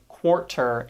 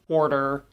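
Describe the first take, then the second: First: The middle consonant is a crisp, hard T. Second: The middle consonant is a quick soft flap. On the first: The speaker calls it wrong. "we don't say" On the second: The speaker calls it right. "we use tap sounds"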